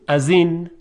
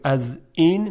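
First: The glottal stop is softened or dropped entirely. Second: A clear glottal stop starts the second word. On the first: "میگیم از این، یعنی اونو خیلی راحت تلفظ میکنیم" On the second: "به جای اینکه بگیم از این"

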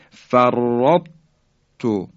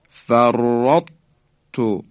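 The two takes are said the same way.

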